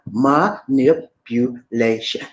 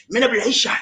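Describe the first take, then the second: First: "Manipulation" very slow, broken into five syllables. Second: Said in the usual way. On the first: Shown as a demonstration. Host teaching viewers to say it, "Manipulation" in slow separate syllables. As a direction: draw out every syllable of "Manipulation", pitched lower. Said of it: "That's a five-syllable word. Five syllables". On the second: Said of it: "Can you say it with me?".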